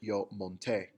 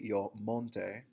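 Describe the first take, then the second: First: The stress is on the last syllable. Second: The stress is on the first syllable. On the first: The speaker calls it right. "put the emphasis at the end of the word" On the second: The speaker calls it wrong. "with the emphasis on the mon"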